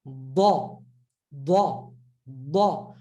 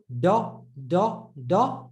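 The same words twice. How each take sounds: First: "ba" as a heavy, trapped D; lower, heavy "ba" with curved tongue. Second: "da" with a light D off a flat tongue; short, plain "da". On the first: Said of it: "curve it a little". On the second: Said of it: "Flat tongue". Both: Shown as a demonstration.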